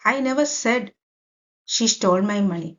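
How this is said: The stress is on the word said. It may have been thought but not said aloud. "അപ്പൊ ഇവിടെ Z"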